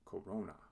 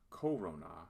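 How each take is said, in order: First: The stress is on the middle syllable. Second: The stress is not on the middle syllable. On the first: The speaker calls it right. "the accent shifts to the second to last syllable" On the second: The speaker calls it wrong. "So this is not corona"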